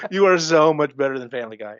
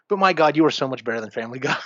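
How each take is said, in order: First: "You are so much better than Family Guy" said louder through a laugh; laughing insistence; laughing repeat. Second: Fast, insistent praise with "my God" stressed; pleading fan praise; emphatic praise. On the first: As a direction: laugh while hammering the point home. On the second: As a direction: rush it out, leaning on "so much better". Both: Shown as a demonstration.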